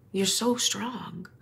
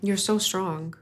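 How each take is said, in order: First: Softer and slow, gently comforting; soft reassurance. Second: Said in the usual way. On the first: Real, not acted. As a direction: say it slowly, soothing a crying guest. Host comforts a tearful guest.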